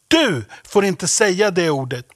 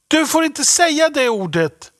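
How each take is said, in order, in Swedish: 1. Ordet du har stark betoning. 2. Ordet du har ingen särskild betoning.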